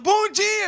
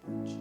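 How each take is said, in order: First: It is said brightly and energetically. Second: It is said slowly and sluggishly.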